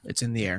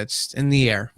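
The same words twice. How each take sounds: First: Soft echo. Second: Said in the usual way. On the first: Real, not acted. Host softly echoing his own joke to the guest, much softer. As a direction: repeat it much softer, half to yourself.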